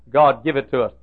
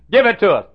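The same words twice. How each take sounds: First: Said in the usual way. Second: A sudden loud, higher-pitched plea; pleading louder. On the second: Retold or imitated. Pastor reliving his all-night prayer, pleading loudly. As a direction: cry it out to God. Retold desperate prayer for money.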